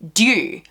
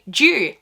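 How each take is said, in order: First: The word begins with a plain hard D sound. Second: The word begins with a J-like sound. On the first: This is the American way of saying it. "the Americans pronounce it with a hard D" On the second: This is the Australian way of saying it. "in Australia, we say due, like like the nationality"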